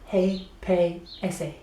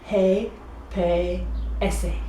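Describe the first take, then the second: First: The letters are said quickly, like one word. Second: The letters are said slowly and separately.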